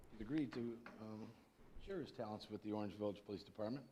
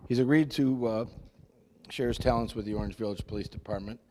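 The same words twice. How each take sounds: First: Speaking softly, barely carrying; soft voice that doesn't reach the room; too quiet. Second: Louder, projecting to the room; speaking up. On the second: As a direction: raise the voice so everyone hears. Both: Real, not acted. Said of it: "Talk louder, please".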